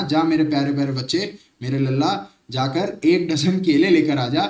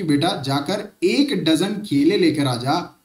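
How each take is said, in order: First: A bit lower, sweetly coaxing mom; mother sweet-talking her son into an errand; doting mother. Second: Said in the usual way. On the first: Retold or imitated. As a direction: coax the child like a loving mother. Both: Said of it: "sir, इतने प्यार से अगर बोला जाए".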